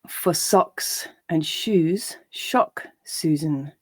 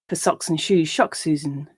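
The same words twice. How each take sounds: First: The line is read slowly. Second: The line is read at a natural speed. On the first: "I'll read each line slowly" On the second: "and then at a more natural pace"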